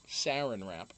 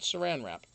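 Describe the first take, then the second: First: It is said with the local regional pronunciation. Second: It is said with the speaker's usual pronunciation. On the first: This is how people here say it. "the first time I ever heard of sarin wrap" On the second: This is how the speaker normally says it. "not saran wrap"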